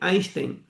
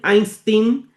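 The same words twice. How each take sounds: First: It has an sh sound before the t. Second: It has a plain s sound before the t. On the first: This is the original Yiddish way of saying it. "o original em Yiddish" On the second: This is the American way of saying it. "A forma americana"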